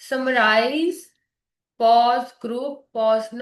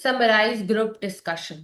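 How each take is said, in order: First: Summarize, then long stop, group, long stop; wrong long pauses. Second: Summarize group discussion slow with small gaps; words separated. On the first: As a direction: overdo the gaps between summarize and group. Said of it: "it's not like that". (गलत, लंबे ठहराव) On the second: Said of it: "words में pause आने चाहिए". (शब्दों के बीच हल्का ठहराव) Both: Shown as a demonstration.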